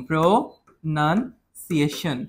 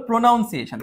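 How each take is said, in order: First: Slow প্রনাউন্সিয়েশন split as "pro, nun, siation"; syllable by syllable. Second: প্রনাউন্সিয়েশন with a "noun" sound inside; mispronounced pronunciation. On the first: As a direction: sound out প্রনাউন্সিয়েশন slowly in pieces, with "nun". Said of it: "বানান যদি এরকম". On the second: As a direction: say প্রনাউন্সিয়েশন wrongly as "pro-noun-siation". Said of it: "এখন তুমি যদি বলো". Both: Shown as a demonstration.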